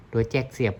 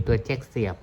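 The two takes are said the same way.

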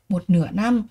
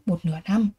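Both takes have the same delivery.

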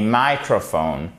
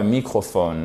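First: "microphone" stressed MY-cro-phone; "microphone" with an eye vowel, beat up front; stress on first syllable. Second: "microphone" said "mee-cro-fone"; French-style wrong "microphone". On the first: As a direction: slowly hit MY in "microphone". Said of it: "accent ici, sur la première syllabe". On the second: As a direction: say "microphone" with an ee vowel and even stress. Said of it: "et non pas un microphone". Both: Shown as a demonstration.

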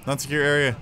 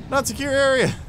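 First: Said in the usual way. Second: High, loud, exasperated Not secure area; building exasperated repeat. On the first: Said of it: "repeats phrase rising". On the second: Shown as a demonstration. Gamer yelling at the game, exasperated. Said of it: "repeated, building louder".

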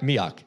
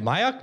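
First: "Miak" as MEE-ock, falling tone; corrected pronunciation. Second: "Miak" as MY-ack, high and rising; questioned pronunciation. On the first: Host correcting himself on the guest's surname, MEE-ock in "Miak". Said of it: "Yeah, Miak. That's correct". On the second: Host checking the guest's surname with him, questioned MY-ack in "Miak". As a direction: try out "Miak" as MY-ack, unsure. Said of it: "Did I pronounce it right?". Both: Shown as a demonstration.

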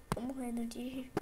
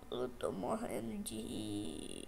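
First: Breathless whisper of laughter. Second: Low, slow, drawn-out murmur; quiet and slow. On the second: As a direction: let it sink down quietly and slowly. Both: Real, not acted. Repeats the phrase in new ways.

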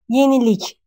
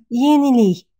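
First: Yenilik with a clear final K; spelling pronunciation. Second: Yenilik ending in a Y-glide, like "yeniliy"; spoken pronunciation. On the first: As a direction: say Yenilik as written, K sounded at the end. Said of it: "Yenilik пишем". (Yenilik с чётким «к» на конце, как пишется) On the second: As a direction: turn the final K of yenilik into Y. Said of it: "но произносим как yenilik". (yenilik с «й» на конце вместо «к») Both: Shown as a demonstration.

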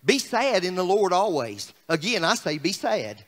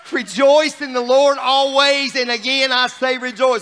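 First: Low, softening glum reading; deadpan downcast scripture parody; mock-sad paraphrase. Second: Joyful preacher's declaration; rejoicing. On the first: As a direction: read it gloomily, sinking lower. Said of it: "another, uh, paraphrase". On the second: Real, not acted. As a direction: proclaim it with joy, stretching the words. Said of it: "No, it says this, rejoice".

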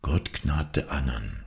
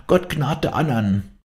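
First: Slow, hushed remembered words; soft inner echo. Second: High, slow cry of a dying woman; shrieked plea. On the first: Dying woman's words echo in Hauke, soft and slow. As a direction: say it softly and slowly, as if to yourself. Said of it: "sprach es leise in ihm". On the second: Dying woman prays for the others, high drawn cry. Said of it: "kreischend, wie ein Notschrei". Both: A narrator's reading.

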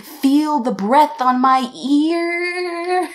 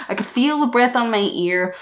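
First: Higher, slow sing-song lilt. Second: Said in the usual way. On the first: Retold or imitated. Vlogger telling viewers about the breath, sing-song. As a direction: savour the creepy detail in a lilt.

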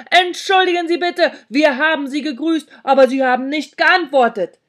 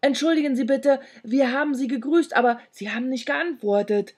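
First: Loud, high shout for the hard of hearing; loudly shouted excuse; shouting back. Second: Flustered, slightly raised voice; mildly nervous excuse; stammered apology. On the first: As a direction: yell the apology so a deaf person hears. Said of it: "schrie ich zurück". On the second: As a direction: apologise timidly, a little rattled. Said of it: "stammelte ich". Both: A narrator's reading.

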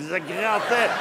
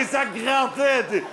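First: Said in the usual way. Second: Grattait stretched slow, pitched up, with a laugh; drawn-out emphasis. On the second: Shown as a demonstration. Remembering the itchy wool balaclavas, slow and laughing. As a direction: drag out ça grattait, higher and laughing. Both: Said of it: "Et Dieu, ça grattait".

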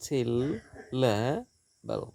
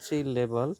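First: সিলেবাল stretched very slowly into its syllables. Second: Said in the usual way. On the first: Shown as a demonstration. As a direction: pull সিলেবাল apart slowly for the class.

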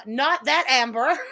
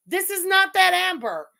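First: "that" leaned on with a rising lift; not THAT Amber, mark the word "that"; stress on that. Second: "that" hit hard and louder, falling off; THIS is not THAT Amber, firmly; emphatic repeat. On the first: Correcting confused chat, stressing "that" lightly. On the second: Repeating herself to chat, punching "that" louder. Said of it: "And again". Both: Real, not acted.

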